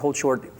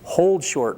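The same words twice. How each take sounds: First: The phrase gets no special emphasis. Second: The phrase is said with strong emphasis. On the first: The speaker calls it wrong. "That's too much" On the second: The speaker calls it right. "put the emphasis later"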